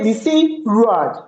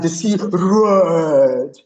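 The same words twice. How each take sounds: First: It is said flatly, without vocal imitation. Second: It is said dramatically, with a roaring voice. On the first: The speaker calls it wrong. "You can't say the sea roared" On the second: The speaker calls it right. "You hear roar, and the sea roared. You will hear that"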